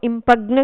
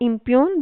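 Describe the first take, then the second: First: A g sound is heard before the n. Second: No g sound; it ends with a long yoon. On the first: The speaker calls it wrong. "ఇంపగ్న్ కాదు" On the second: The speaker calls it right. "ఇంప్యూన్ దాని యొక్క pronunciation"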